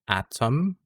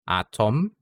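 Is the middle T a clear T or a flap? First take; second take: clear T; clear T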